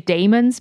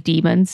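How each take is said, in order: First: The first vowel sounds like 'day'. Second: The first vowel sounds like 'dee'. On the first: The speaker calls it wrong. "I say daemons" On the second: The speaker calls it right. "apparently demons is the correct way to say it"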